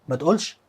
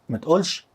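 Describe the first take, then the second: Both takes have the same delivery.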